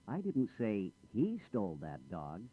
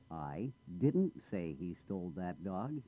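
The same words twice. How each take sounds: First: The stress falls on the word he. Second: The stress falls on the word didn't. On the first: A different person did it. "I didn't say he did it. I said she or someone else" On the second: Something was said, but not that. "I did say something, but not that"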